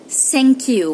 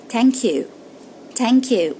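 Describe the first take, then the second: First: "thank" said as "sank" with an s; Egyptian-style thank you. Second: "thank" said as "tank" with a very soft light t. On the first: Teacher demos the incorrect Egyptian "thank you". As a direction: mimic the wrong s in "thank". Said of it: "which is incorrect". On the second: Teacher offers a soft t for "thank you". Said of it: "which is a very soft T". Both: Shown as a demonstration.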